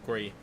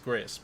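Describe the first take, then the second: First: The name ends on the vowel, no s. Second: The name ends with an s sound. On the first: The speaker calls it right. "but it's actually meant to be called" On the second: The speaker calls it wrong. "which I mispronounced entirely when I was on stream as"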